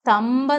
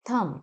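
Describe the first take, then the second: First: A 'b' or 'p' sound is heard at the end. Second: The word ends on the 'm' sound. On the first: The speaker calls it wrong. "തമ്പ് എന്നല്ല പറയേണ്ടത്" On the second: The speaker calls it right. "ബി is silent"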